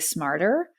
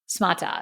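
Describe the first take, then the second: First: It is said in a plain unaccented way. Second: It is said with a heavy foreign accent. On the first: "if I read the word smarter, I would say smarter" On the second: "they do this like heavy accent and they say smata"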